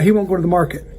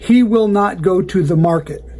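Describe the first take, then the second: First: The words will not are contracted to won't. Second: The words will not are said in full. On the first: It sounds natural and believable. The speaker calls it right. "in real life, You'd say" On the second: It sounds stuffy and less believable. The speaker calls it wrong. "we read and write without contraction"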